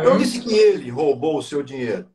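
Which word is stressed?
ele. The stress is on "ele".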